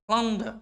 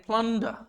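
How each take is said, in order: Both takes have the same delivery.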